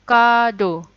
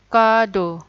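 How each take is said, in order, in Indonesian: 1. Diucapkan dengan cara Jepang, dua suku kata. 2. Diucapkan dengan cara Jepang, dua suku kata.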